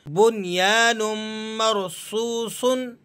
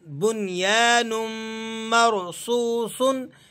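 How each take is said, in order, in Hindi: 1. आखिरी लफ़्ज़ आखिर में -un की आवाज़ पर खत्म होता है। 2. आखिरी लफ़्ज़ आखिर में -un की आवाज़ पर खत्म होता है।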